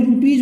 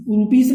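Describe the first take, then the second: First: रुपीज with a clear J ending, "rupeej"; सही उच्चारण. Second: रुपीज ending in an S sound, "rupees"; गलत उच्चारण. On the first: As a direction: end रुपीज on "j" in place of "s". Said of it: "बोला जाता है". (रुपीज के अंत में "ज" की आवाज़) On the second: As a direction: end रुपीज on "s", not "j". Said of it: "रुपीज नहीं". (रुपीज के अंत में "स" की आवाज़) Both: Shown as a demonstration.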